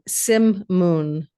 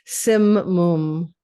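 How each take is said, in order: First: The second syllable sounds like the word moon. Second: The second syllable does not sound like moon. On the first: The speaker calls it wrong. "like the moon" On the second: The speaker calls it right.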